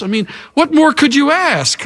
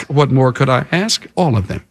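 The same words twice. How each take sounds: First: High-pitched, defensive rhetorical question; protesting King Saul. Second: Level retort. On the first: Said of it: "Look at that resistance to accountability". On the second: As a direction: answer drily, dropping the pitch right down. Answers Saul's excuse in lower voice. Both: Acted.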